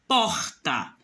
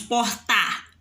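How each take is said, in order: First: The stress is on the first syllable. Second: The stress is on the second syllable. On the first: The speaker calls it right. "o por sai mais forte" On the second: The speaker calls it wrong. "Nós não falamos portar"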